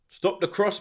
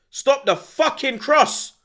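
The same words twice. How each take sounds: First: Said in the usual way. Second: Slow furious demand at the screen; frustrated yell. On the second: Real, not acted. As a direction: spell it out at the defenders, furious. Pleading with defenders on TV.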